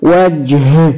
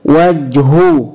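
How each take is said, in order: First: وجه closed on a breathed h; stopped with sukun. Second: وجه slowly as "waj-hu"; linked-form وجه, final h voweled; voweled ending. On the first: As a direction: say وجه as "wajh", no final vowel. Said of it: "طب بالسكون". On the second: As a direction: say وجه with a long, sounded "hu" at the end. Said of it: "هنطقها مرة بالتشكيل". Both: Shown as a demonstration.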